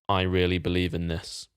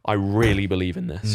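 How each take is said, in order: First: The voice stays steady throughout. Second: The voice cracks while speaking.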